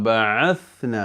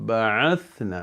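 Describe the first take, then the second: Both takes have the same delivery.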